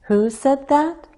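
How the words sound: The pitch rises at the end of the question. "Rising intonation"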